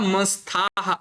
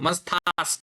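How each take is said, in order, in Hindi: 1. यह शब्द एक श्वास-युक्त 'h' ध्वनि से समाप्त होता है। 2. यह शब्द 's' ध्वनि से समाप्त होता है। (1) "न अतः मस्थाः इति वदामः" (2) "सकारः अस्ति ... मस्थास् वदतु"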